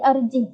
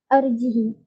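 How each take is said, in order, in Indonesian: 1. Kata ini berakhir dengan h tanpa vokal. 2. Vokal i di akhir dibaca pendek. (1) "sukunkan hak" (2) "kasrahkan hak dan tanpa silah"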